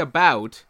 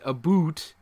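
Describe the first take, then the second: First: "about" with an ow diphthong, not oo; real Canadian "about". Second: "a boot" with a long oo; mock Canadian vowel. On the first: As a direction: say "about" casually with its ow sound. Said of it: "when we say". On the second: Co-host showing what Canadians don't say, oo vowel. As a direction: say "a boot" as in footwear. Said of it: "we don't say". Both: Shown as a demonstration.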